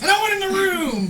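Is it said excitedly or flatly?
excitedly. It is said excitedly, with lively energy.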